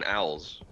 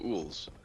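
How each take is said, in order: First: The vowel sounds like 'ow' as in 'cow'. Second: The vowel sounds like 'oo' as in 'pool'. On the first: "You mean owls?" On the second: "Why are you pronouncing owls as ools?"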